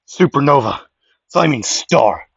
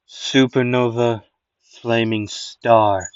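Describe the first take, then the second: First: Loud anime attack shout; battle cry for the special move; shouted attack call. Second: Drawn out, very slow move name; slower dramatic take. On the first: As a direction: yell the move name out loud. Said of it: "let me redo that". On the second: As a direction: stretch every syllable for drama. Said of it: "I got a better way to do that". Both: Acted.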